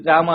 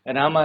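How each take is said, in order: First: The name is called very loudly. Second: The name is called softly and quietly.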